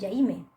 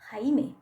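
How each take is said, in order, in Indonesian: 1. Bunyi pertama seperti j dalam bahasa Inggris. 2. Bunyi pertama seperti h. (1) "bukan Jaime" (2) "Atau Jaime"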